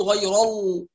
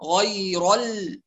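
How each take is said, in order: First: "غير ال" with the "ل" darkened after the "ر"; heavy laam, wrong. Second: Slow "غير ال" with a thin held "ل"; light laam. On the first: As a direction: let the heaviness spill into the "ل" of "غير ال". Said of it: "لا نقول". ("غير ال" بتفخيم اللام خطأً) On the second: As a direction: switch from dark "ر" to light "ل" in "غير ال". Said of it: "على ترقيق اللام". ("غير ال" بلام مرققة) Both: Shown as a demonstration.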